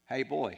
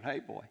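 First: A light Ozark drawl, a bit louder; Ozark greeting. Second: A hint of Ozark drawl, dropped back and casual; softer Ozark greeting. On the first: Retold or imitated. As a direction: call out hey boy in a hint of Ozark twang. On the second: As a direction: toss off hey boy lightly in an Ozark lilt. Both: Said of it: "so he kinda talked like this".

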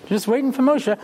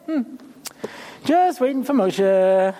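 First: Said in the usual way. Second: Slow, unbothered waiting in a mock role; drawn-out idle waiting. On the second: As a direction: stretch JUST out slowly. Playing oblivious Yehoshua waiting.

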